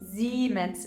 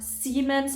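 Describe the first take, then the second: First: The first S is a soft buzzing sound. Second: The first S is a sharp hissing sound. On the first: The speaker calls it right. "soft S's, Z, uh, that have more of a buzzing sound" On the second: The speaker calls it wrong. "it's not Siemens"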